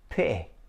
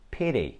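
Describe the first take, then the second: First: The middle T is cut off sharply. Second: The middle T sounds like a soft D. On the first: "This is actually a glottal stop" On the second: "you should not pronounce it like D, because this is what Americans do"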